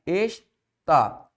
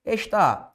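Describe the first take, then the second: First: "Está" split in two, Es, pause, tá; "Está" said syllable by syllable; separated syllables. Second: Said in the usual way. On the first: Shown as a demonstration. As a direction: break "Está" into its syllables with a clear gap.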